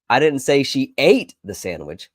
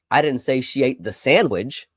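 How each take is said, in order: First: The word "ate" carries the main stress. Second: The word "sandwich" carries the main stress. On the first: She did something else with it. "She may have packed it and stored it away for later" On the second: She ate something different. "She ate something else"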